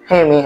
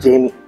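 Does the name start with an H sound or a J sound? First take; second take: H sound; J sound. First: The name begins with an H sound. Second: The name begins with a J sound.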